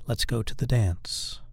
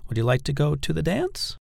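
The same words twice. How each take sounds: First: Slow command, pitch falling on "dance"; falling command inflection. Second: Higher pitch, rising right up on "dance"; raised voice at end. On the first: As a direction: make it a firm suggestion, "dance" going down. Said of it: "When you're giving a command". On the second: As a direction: ask it weakly, lifting "dance" into a question. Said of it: "you shouldn't raise your voice at the end". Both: Shown as a demonstration.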